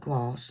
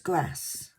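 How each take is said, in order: First: It is said without a country twang. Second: It is said with a country twang.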